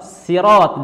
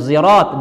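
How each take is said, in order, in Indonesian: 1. Dimulai dengan bunyi s yang biasa dan ringan. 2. Dimulai dengan bunyi z yang bersuara. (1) "sirat dengan sin" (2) "zirat dengan zai"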